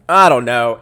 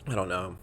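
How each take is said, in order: First: Much louder, frustrated exclamation; loud exasperation. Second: Subdued and at a loss; quiet resignation. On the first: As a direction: burst out with it. Repeats it loudly in exasperation. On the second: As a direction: say it softly, giving up. First, resigned take, then repeated loudly. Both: Real, not acted.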